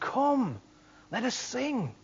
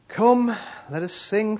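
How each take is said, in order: First: It is said in a lively, joyful way. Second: It is read in a flat, dull way. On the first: The speaker calls it right. "It's come" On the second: The speaker calls it wrong. "I don't think he meant it like that"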